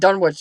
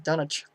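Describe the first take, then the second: First: The name is said the non-New England way. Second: The name is said the New England way. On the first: The speaker calls it wrong. "everywhere else they pronounce it Dunwich" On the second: The speaker calls it right. "which is Dunwich"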